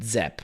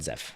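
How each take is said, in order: First: The name ends with a p sound. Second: The name ends with an f sound. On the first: The speaker calls it right. "You pronounce it Zep" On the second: The speaker calls it wrong. "not Zef"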